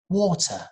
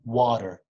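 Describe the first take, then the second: First: It has a British accent with a clear t. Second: It has an American accent with a soft tap. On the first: "If you want to work on your British accent" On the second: "Very soft"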